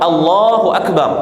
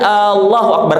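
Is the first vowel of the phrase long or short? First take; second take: short; long. First: The opening A sound is kept short. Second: The opening A sound is drawn out long. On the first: The speaker calls it right. "Yang benar Allah" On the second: The speaker calls it wrong. "bukan Allahu Akbar. Kenapa Allahu Akbar salah? Orang memanjangkan A-nya ya, A di awal"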